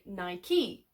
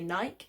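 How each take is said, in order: First: It uses the American pronunciation of the name. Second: It uses the European pronunciation of the name. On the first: The speaker calls it right. "American people say Nike" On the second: The speaker calls it wrong. "European people say Nike"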